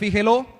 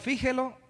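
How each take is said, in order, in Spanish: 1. La sílaba tónica es la última. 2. La sílaba tónica es la primera. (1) "tendría tilde en la O" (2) "sería tilde en la I"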